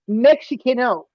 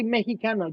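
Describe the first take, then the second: First: Mexicano with an English ks for the x; anglicized pronunciation. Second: Mexicano with a soft h sound for the x; native Spanish pronunciation. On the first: Critic showing what the other man didn't say, anglicized pronunciation. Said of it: "You didn't say Mexicano". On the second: Critic showing the other man how he said it, native Spanish pronunciation. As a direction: say Mexicano the Spanish way, breathy h in the middle. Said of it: "You say Mexicano". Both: Shown as a demonstration.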